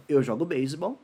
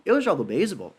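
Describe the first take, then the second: First: Said in the usual way. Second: "Eu jogo beisebol" turned into a question by tune alone, lifting then falling on beisebol; question intonation. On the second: Shown as a demonstration. Teacher showing how intonation alone makes a question, "Eu jogo beisebol" asked. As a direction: ask "Eu jogo beisebol" with a marked question melody. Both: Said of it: "eu só mudo a entonação".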